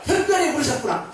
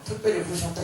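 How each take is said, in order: First: It is said strongly, with force. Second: It is said weakly, without force.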